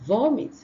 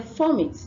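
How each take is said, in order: First: The word begins with a v sound. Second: The word begins with an f sound. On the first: The speaker calls it right. "the V sound" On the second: The speaker calls it wrong. "they exchange it for F sound"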